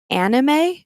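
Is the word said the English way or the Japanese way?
English. It is said with an English pronunciation. It follows the word's English origin. "Since it's borrowed from animation in English, it's perfectly fair to pronounce it anime"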